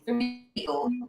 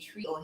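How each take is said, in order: First: It is said as two words, 'three O'. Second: It is said as one word, 'tree-oh'. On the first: The speaker calls it right. "it's the three O for Emerge" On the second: The speaker calls it wrong. "we don't say trio here"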